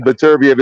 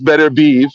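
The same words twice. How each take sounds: First: Beterbiev said as "Beh-tur-bee-EV"; mistaken pronunciation. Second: Beterbiev said as "Better-beev"; correct pronunciation. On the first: Boxing pundit admitting his old habit, mistaken pronunciation of Beterbiev ending "bee-ev". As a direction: end Beterbiev on two syllables, "bee-ev". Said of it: "I've been saying". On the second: Boxing pundit correcting himself as he was told, correct pronunciation of Beterbiev as "Better-beev". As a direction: close Beterbiev on a single "beev". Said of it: "by a native Russian speaker". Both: Shown as a demonstration.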